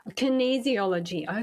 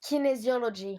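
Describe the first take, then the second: First: Kinesiology checked back with a questioning rise; careful repeat. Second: Kinesiology with a French ring, stress on the end; Kinesiology said the French way, kee-nay-zee-oh-lo-zhee; French pronunciation. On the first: Shown as a demonstration. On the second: Real, not acted. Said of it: "it's my French accent".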